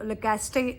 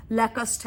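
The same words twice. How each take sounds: First: لیکاسٹے said as le-kas-te, three syllables with a final e; لیکاسٹے the way many people say it, with a sounded ending; common mispronunciation. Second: لیکسٹ said as two syllables, lek-st, with no final vowel; لیکسٹ clipped short at the end, the proper French way; correct pronunciation. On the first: Telling viewers how many people wrongly say the brand name, le-kas-te. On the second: Correcting viewers on the brand name, saying lek-st. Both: Shown as a demonstration. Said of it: "جو اس کی صحیح pronunciation ہے".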